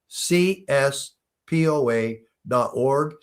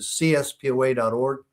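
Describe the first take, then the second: First: The address is said slowly. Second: The address is said quickly.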